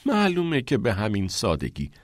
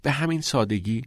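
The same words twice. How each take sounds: First: "معلومه که به همین سادگی" as a falling statement; affirming answer. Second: "به همین سادگی" as a higher-pitched question; "به همین سادگی" left open as a query. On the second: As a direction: ask "به همین سادگی" in doubt. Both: A narrator's reading. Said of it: "کریس پرسید".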